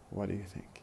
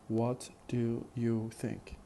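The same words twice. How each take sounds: First: It is run together with a weak 'do'. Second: Each word is said fully and carefully. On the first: "then in fast speech" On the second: "First in careful speech"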